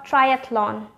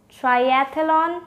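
First: "triathlon" as try-ATH-lon; th straight into l in "triathlon"; three-syllable pronunciation. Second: "Triathlon" as try-ATH-uh-lon; four-syllable mispronunciation. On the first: Teacher offering viewers the second option, three-syllable pronunciation. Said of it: "or just three syllable". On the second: Teacher offering viewers the first option, four-syllable mispronunciation. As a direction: put an extra vowel after th in "Triathlon". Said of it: "With four syllable". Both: Shown as a demonstration.

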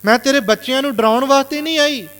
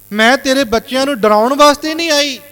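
First: Emotional plea. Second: Higher and louder, pleading mother; emotional plea. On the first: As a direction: say it again, hurt and pleading. (ਦੁਖੀ ਮਾਂ ਦਾ ਮੁੜ ਤਰਲਾ) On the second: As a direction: beg him to believe her. (ਉੱਚੀ ਤੇ ਭਾਵੁਕ ਅਵਾਜ਼ ਵਿੱਚ ਤਰਲਾ) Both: Retold or imitated. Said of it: "ਭਾਵੁਕ ਹੋ ਕੇ ਸ਼ਬਦ ਬੋਲੇ".

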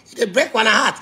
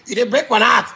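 The two takes are said the same way.

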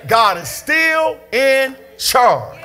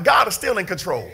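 First: "God is STILL in CHARGE", very drawn out; emphatic repeat. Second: Said in the usual way. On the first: Real, not acted. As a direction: stretch "still", "in" and "charge" slowly, word by word. Slow emphatic repeat to congregation.

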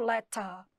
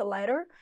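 First: LETTER with a crisp T and no final R; British letter, R-less ending; British pronunciation. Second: LETTER with a flapped T and final R; American pronunciation. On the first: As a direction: say letter as "le-tah". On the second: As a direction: say letter as "le-der". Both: Shown as a demonstration. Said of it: "E se for falando britânico".

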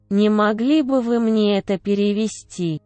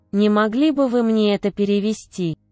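Both takes have the same delivery.

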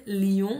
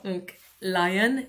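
First: Said in the usual way. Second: "lion" said the English way, "lie-on". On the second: Shown as a demonstration. Teacher giving the English word "lion" to pupils. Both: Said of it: "on va chercher plein de mots".

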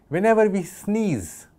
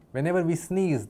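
First: Higher and slow, stressing Whenever; emphatic first take. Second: Said in the usual way. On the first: Shown as a demonstration. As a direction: draw out "Whenever we sneeze" high and slow to grab attention. Lecturer repeats phrase for emphasis.

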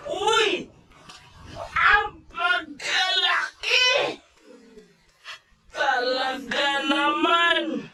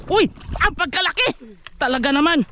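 First: Slow, stretched, higher shout; drawn-out shout. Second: High, excited exclamation; excited exclaim. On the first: Angler hollers across the boat at the huge fish, drawn-out shout. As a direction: belt it out, dragging every word. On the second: Angler marvels at the big amberjack, excited. Excited over the huge catch. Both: Real, not acted.

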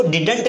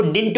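First: Didn't को "डिडन्ट" बोलना, बीच में अ जोड़कर; didn't के बीच में साफ़ अ, जैसे डि-डन्ट; wrong pronunciation. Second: Didn't एक झटके में "डिन्ट", बीच में कोई अ नहीं; didn't को "डिन्ट" जैसा छोटा बोलो; correct pronunciation. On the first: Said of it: "इसको didn't नहीं पढ़ना है". (गलत उच्चारण: didn't = "डिडन्ट") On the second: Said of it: "इसको didn't पढ़ना है". (सही उच्चारण: didn't = "डिन्ट") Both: Shown as a demonstration.

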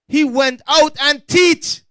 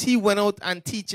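First: Slow, loud, high "He went out and teach"; emphatic repeat. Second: Said in the usual way. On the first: Real, not acted. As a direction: drive home each word of "He went out and teach", slowly and loudly.

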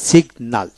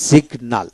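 The two takes are said the same way.

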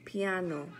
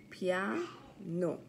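First: Said in the usual way. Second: Piano split into pia-no with a gap; syllable by syllable. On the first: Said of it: "practice our counting syllables". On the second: Shown as a demonstration. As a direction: count out two beats in Piano. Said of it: "Two syllables".

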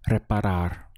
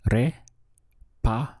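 First: Said in the usual way. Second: "Re-pa-rar" split into three slow, separate syllables. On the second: Shown as a demonstration. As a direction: say "Re-pa-rar" slowly, pausing between each syllable. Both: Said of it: "We have three syllables".

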